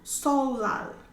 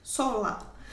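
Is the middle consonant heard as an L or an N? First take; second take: L; L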